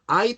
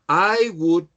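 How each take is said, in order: First: The words are joined into one short syllable. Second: Both words are said fully and separately.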